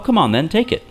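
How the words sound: It is said in a warm, friendly tone. The speaker is kindly offering it. "Like that sounds friendly"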